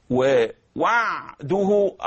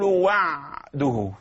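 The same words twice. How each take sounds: First: ووعده slow, ع fully voiced; clear voiced ع. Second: Very slow وعده, ع voiced; clear voiced ع. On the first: Teacher contrasts the clear voiced ع, slow. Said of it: "صوت الوضوح". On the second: Teacher shows the voiced ع in وعده, very slow. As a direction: stretch وعده with a full ع. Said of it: "قلت البعبعة". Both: Shown as a demonstration.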